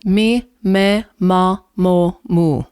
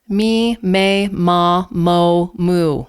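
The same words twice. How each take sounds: First: The vowels are pure, clear and clean. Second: The vowels are stretched sideways and muddy. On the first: The speaker calls it right. "In Italian" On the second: The speaker calls it wrong. "Those vowels are kind of stretched sideways. They're a little bit muddy"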